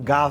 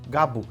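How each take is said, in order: First: The name ends in a v consonant. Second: The name ends in an open vowel. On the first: "e não Gav" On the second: "que eu falo Gabo"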